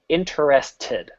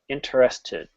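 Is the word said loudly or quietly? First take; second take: loud; quiet. First: The word is said at full, normal volume. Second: The word is said quietly, trailing off.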